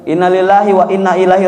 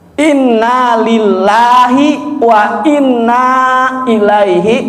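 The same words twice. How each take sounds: First: The vowel before 'ilaihi' is held short. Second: The vowel before 'ilaihi' is held long. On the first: The speaker calls it wrong. "bacanya aja udah salah" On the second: The speaker calls it right. "nah gitu Pak"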